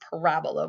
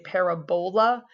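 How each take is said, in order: First: The stress is on the second syllable. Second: The stress is on the third syllable. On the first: The speaker calls it right. "with the accent on the raw, the second symbol there" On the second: The speaker calls it wrong. "some students will say parabola just as a like kind of way to remember that it looks like a bowl"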